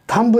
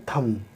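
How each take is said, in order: First: "थंब" ending on an audible b; final B wrongly sounded. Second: "थंब" said as "tham", ending on m; silent B. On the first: Teacher shows what not to read, "थंब" with final B sounded. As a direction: say "थंब", releasing a b after the m. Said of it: "नहीं पढ़ते". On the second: Teacher models the correct reading, "थंब" as "tham", B silent. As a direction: say "थंब" with no final b sound. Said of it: "इसको हम पढ़ते हैं". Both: Shown as a demonstration.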